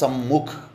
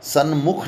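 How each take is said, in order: First: An m sound comes before 'mukh'. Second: An n sound comes before 'mukh'. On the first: The speaker calls it right. "वो होगा सम्मुख, स आधा में" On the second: The speaker calls it wrong. "सन्मुख नहीं होगा"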